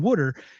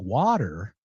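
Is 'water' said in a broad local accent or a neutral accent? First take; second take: broad local; neutral. First: It is said in a broad Philadelphia accent. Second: It is said in a neutral, clear accent. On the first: The speaker is at home among locals. "you have to sound like that" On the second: The speaker wants a wide audience to understand. "so that people understand"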